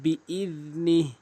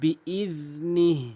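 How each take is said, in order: No difference in how they are said.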